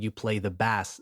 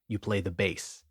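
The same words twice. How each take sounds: First: 'Bass' is pronounced like the fish. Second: 'Bass' is pronounced like the instrument. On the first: You play a kind of fish. The speaker calls it wrong. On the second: You play the instrument. The speaker calls it right.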